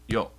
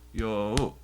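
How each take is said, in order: First: The vowel is short, a single beat. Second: The vowel is held for an extra beat. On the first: The speaker calls it wrong. "not yo" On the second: The speaker calls it right. "it's an extra beat"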